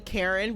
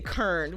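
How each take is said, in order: First: The name is said with two syllables. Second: The name is said with one syllable. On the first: "they don't say Karen with two syllables" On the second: "they say Kern ... it's always just one syllable"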